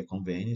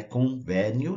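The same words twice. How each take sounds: First: "convênio" with a closed stressed e; correct closed ê. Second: "convênio" mispronounced with an open e, "convénio"; wrong open é. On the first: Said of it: "o som fechado". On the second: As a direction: open the stressed vowel of "convênio" to "vé". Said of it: "não é convênio". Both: Shown as a demonstration.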